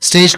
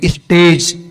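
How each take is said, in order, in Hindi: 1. यह शब्द सीधे st ध्वनि से शुरू होता है। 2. st ध्वनि से पहले एक अतिरिक्त स्वर जोड़ा जाता है।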